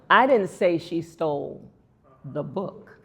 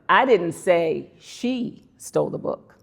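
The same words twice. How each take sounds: First: The word book carries the strongest stress. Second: The word she carries the strongest stress. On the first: She stole something else. "She stole something" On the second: Somebody else stole the book. "Somebody else stole the book"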